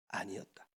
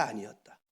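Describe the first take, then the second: First: Breathy whisper, much softer; whispered answer. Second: Said in the usual way. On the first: Shown as a demonstration. (속삭이듯 답하기) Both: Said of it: "모세의 작품이었다, 아니었다?".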